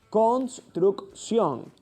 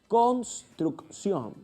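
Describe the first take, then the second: First: Every sound of the word is articulated exactly. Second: The same.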